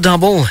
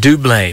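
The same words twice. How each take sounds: First: It is pronounced like the English word double. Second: It is pronounced in a continental, non-English way. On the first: The speaker calls it wrong. "Not double, as it looks like to us" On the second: The speaker calls it right. "but Double, because they were Swiss or something"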